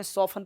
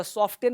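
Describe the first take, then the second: First: सॉफ्टन said as "sofan", no T; silent T. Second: सॉफ्टन with the T pronounced; T sounded. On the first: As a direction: model सॉफ्टन going from F straight to N. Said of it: "सॉफ्टन में सॉफ्टन पढ़ते हैं". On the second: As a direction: say सॉफ्टन as spelt, with a T after the F. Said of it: "सॉफ्टन में टी नहीं पढ़ते". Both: Shown as a demonstration.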